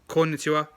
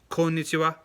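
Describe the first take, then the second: The two takes are said the same way.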